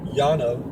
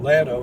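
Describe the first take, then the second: First: The name begins with a Y sound. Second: The name begins with an L sound. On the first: This follows the spelling rule for double L. "it should be Yano, because a double L is a Y" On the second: This is how the locals say it. "Lano is called Lano"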